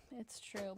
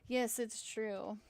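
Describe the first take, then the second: First: Said in the usual way. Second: "Yes, it's true" drawn out slow and louder; emphatic admission. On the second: Real, not acted. Admitting to a commenter, slow and emphatic. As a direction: lean on "Yes, it's true", slowly and firmly.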